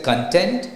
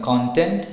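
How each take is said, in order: First: Content slowly with TENT stressed; stress on second syllable of content. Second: Content with CON stressed; stress on first syllable of content. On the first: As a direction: put the weight on "ten" in content. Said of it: "the stress is on ten". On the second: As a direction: put the weight on "con" in content. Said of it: "the stress is on C O N". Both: Shown as a demonstration.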